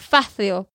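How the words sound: The c sounds like English th, Spanish style.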